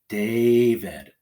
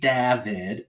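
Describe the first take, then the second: First: The first vowel is a long a sound. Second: The first vowel is a short a sound. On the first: The speaker calls it right. "David with a long A first" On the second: The speaker calls it wrong. "This would not be David"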